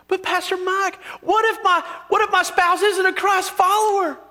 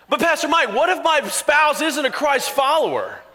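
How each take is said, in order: First: It is said in an East Texas accent. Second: It is said in a neutral accent.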